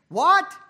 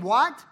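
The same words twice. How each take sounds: First: High, loud incredulous "What?"; indignant what. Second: Said in the usual way. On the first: Shown as a demonstration. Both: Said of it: "you can almost hear him say it".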